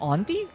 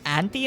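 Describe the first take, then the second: First: Auntie is said with a non-American pronunciation. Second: Auntie is said with an American pronunciation. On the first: "instead of auntie" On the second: "do Americans say auntie"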